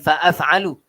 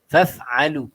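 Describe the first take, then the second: First: The opening is broken into two syllables, fa-af. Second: The opening is one closed syllable, faf. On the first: The speaker calls it wrong. "bukan fa'af'alu" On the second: The speaker calls it right.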